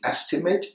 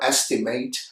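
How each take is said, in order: First: The final syllable sounds like 'it'. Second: The final syllable sounds like 'eight'. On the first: The word is used as a noun. "noun, it" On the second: The word is used as a verb. "verb, eight"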